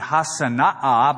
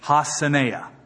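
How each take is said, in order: First: The name is said in its fuller, harder form. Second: The name is said in a simpler, easier form. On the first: This is how the name really goes. "Actually, it would be Hassanaah" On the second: This is an easier stand-in for the real form. "it's too hard to say, so we'll just say Hassaneah"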